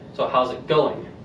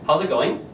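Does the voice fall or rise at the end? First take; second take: fall; rise. First: The voice falls at the end. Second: The voice rises at the end. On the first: The speaker calls it right. "So it drops" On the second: The speaker calls it wrong. "That sounds weird"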